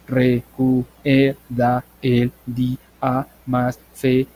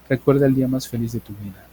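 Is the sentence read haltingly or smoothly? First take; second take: haltingly; smoothly. First: It is read haltingly with breaks. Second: It is read smoothly without breaks. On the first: The speaker calls it wrong. "eso no tiene fluidez" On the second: The speaker calls it right. "Eso tiene fluidez"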